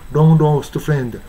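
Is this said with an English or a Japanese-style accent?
Japanese-style. It is said with Japanese-style sounds. The speaker calls it wrong. "日本語式のLong lost friend。汚いですね。"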